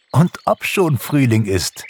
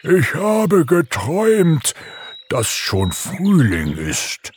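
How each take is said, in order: First: Higher, brisker cheerful confirmation; amused. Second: Slow, drawn-out drowsy bear voice; sleepy bear. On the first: Pixie confirms spring to the waking bear, amused. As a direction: confirm it with laughing good humour. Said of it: "lachte Pixie". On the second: Bear Umberto tells his dream on waking, sleepy. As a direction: drag it out, only half awake. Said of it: "murmelte Umberto verschlafen". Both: A narrator's reading.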